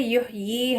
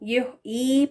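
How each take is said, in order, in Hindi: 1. दूसरे अक्षर की शुरुआत स्पष्ट 'y' ध्वनि से होती है। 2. दूसरा अक्षर 'y' के बिना सादा 'ee' स्वर है। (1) "ये है करेक्ट प्रोनाउंसिएशन" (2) "या को पूरी तरह से ड्रॉप करके या साइलेंट करके तो ये गलत है"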